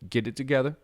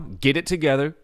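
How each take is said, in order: First: It is said in a warm, gentle tone. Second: It is said in a harsh, stern tone. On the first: The speaker cares about the listener. "you can say that in a nice way" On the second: There is no other option right now. "sometimes people need stern"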